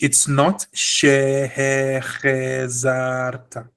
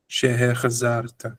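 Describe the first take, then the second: First: "Shehechezarta" slowly, with full vowel in "che" as the wrong reading; drawn out wrong take of "Shehechezarta"; wrong version. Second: "Shehechezarta" with a quick clipped "che"; short chataf vowel. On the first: Teacher showing students the wrong reading. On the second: Teacher showing students the correct short sound. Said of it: "You see how short this is?". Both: Shown as a demonstration.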